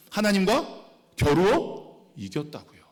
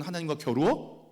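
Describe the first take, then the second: First: 하나님과 겨루어 drawn out slowly, each word weighted; proclaiming 하나님과 겨루어 as a slow emphatic declaration; slow emphatic stress. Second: Said in the usual way. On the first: Shown as a demonstration. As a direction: lean into 하나님과 slowly and firmly.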